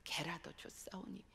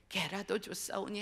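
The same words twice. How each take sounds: First: Soft whispered plea, very quiet; whispered humble plea; hushed prayer. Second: Said in the usual way. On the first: Retold or imitated. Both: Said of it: "그때의 그 기도 자리로 돌아가요".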